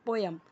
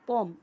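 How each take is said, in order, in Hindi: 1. यह शब्द दो अक्षर में बोला जाता है। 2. यह शब्द एक अक्षर में बोला जाता है। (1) "लेकिन हम क्या बोलते हैं" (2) "जो फॉरेनर होते हैं वो पोएम को पॉम बोलेंगे"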